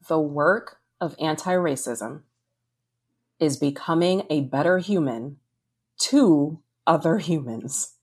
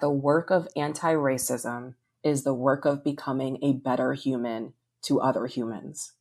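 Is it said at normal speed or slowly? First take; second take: slowly; normal. First: It is said slowly and deliberately. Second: It is said at normal conversational speed.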